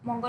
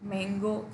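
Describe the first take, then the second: First: The first vowel sounds like the vowel in 'mun'. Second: The first vowel sounds like the vowel in 'man'. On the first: The speaker calls it wrong. "No मंगो नुह" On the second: The speaker calls it right. "यहाँ हूँ मैंगो से pronunciation ठीक"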